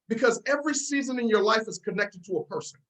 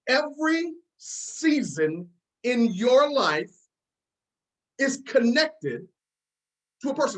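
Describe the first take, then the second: First: It is said at a normal pace. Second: It is said slowly and deliberately.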